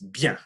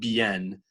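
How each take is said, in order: First: The word is said as one syllable. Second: The word is split into two syllables. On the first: The speaker calls it right. "it's one big syllable" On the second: The speaker calls it wrong. "it's not bien"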